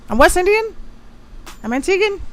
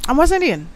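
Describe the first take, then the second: First: High proud "I'm West Indian"; proud exclamation. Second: Said in the usual way. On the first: Real, not acted. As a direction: declare your roots proudly, pitch way up.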